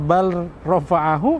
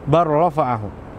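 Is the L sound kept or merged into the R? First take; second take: kept; merged. First: The L is pronounced separately before the R. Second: The L merges fully into a doubled R. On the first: The speaker calls it wrong. "Jadi bukan bal rafa'ahu" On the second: The speaker calls it right. "tapi langsung dimasukkan ke huruf ro"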